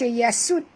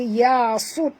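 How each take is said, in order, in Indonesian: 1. Bunyi s itu ringan dan tipis. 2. Bunyi s itu berat dan tebal. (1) "jangan baca yasud" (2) "baca yasud tebal"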